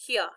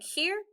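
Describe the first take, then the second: First: "here" said Southern, as "hee-ah"; Southern pronunciation. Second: Said in the usual way. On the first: Shown as a demonstration. Child showing mother's worried talk, Southern "here" as "hee-ah". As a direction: drop the r in "here" in a Southern accent. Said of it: "talking Southern style". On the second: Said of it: "Instead of saying".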